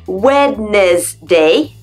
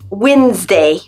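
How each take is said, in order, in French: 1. Chaque lettre écrite se prononce. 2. Certaines lettres écrites restent muettes. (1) "en apparence se dit" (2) "ça se prononce"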